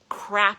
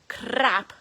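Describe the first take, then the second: First: It is said in the speaker's ordinary accent. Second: It is said in a Scottish accent.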